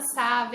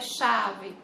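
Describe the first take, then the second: First: The word begins without a clear sh sound. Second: The word begins with a clear sh sound. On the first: The speaker calls it wrong. "você está falando errado, não é chave" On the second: The speaker calls it right. "é chave"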